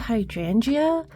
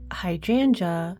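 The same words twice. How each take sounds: First: The ending is said as two syllables, 'jee-uh'. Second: The ending is said as one syllable, 'juh'. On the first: The speaker calls it wrong. "I say hydrangea" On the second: The speaker calls it right. "We say hydrangea"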